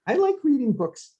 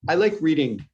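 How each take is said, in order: First: Pitched way up, book lover swooning; I like reading books in a sudden high voice; high mock voice. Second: Said in the usual way. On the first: Shown as a demonstration. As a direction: squeak it out like a gushing fan. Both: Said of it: "like this".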